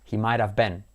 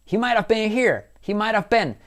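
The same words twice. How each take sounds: First: Said in the usual way. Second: "been" said short like "ben", higher and louder; cool been. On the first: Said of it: "en vez de decir been". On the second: Shown as a demonstration. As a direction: land "been" as "ben", not "bean". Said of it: "Y ese been, en vez de decir been".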